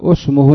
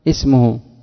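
First: The opening vowel is 'u', as usmuhu. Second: The opening vowel is 'i', as ismuhu. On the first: The speaker calls it wrong. "لماذا لا نضم مع أن الميم مضمومة" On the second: The speaker calls it right. "إذا بدأت بها تكسر الهمزة"

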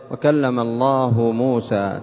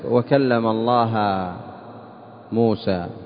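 First: Allah ends in a 'u' vowel, nominative. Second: Allah ends in an 'a' vowel, accusative. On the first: God is the one who spoke. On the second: Moses is the one who spoke.

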